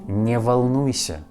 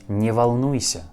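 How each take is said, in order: The two takes are said the same way.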